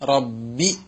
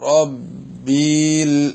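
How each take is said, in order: First: The final vowel is kept short. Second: The final vowel is stretched long. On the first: The speaker calls it right. "അതാണ് കസ്ർ" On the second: The speaker calls it wrong. "അശ്രദ്ധമായി നീണ്ടുപോയാലോ"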